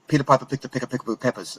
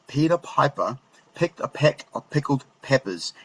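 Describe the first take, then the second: First: It is said as fast as possible. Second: It is said slowly and with control.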